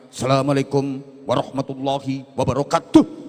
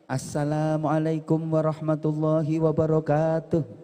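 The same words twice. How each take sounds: First: The greeting is said in a firm, disciplined manner. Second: The greeting is said in a smooth ceremonial manner. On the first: It is the greeting of police or soldiers. "dengan disiplin dan tegas" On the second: It is the greeting of a master of ceremonies. "Kalau jadi M C, salamnya ya kayak tadi"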